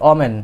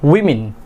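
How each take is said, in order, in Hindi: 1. पहला अक्षर 'oh' जैसा सुनाई देता है। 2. पहला अक्षर 'wih' जैसा सुनाई देता है। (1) "আমরা ছোট সময় থেকে শিখে আসছি যে ডাব্লিউ ও M E N এটার উচ্চারণ হবে কি" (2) "বাট এটার কারেক্ট প্রনাউন্সিয়েশন ইজ"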